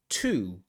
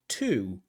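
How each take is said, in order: The two takes are said the same way.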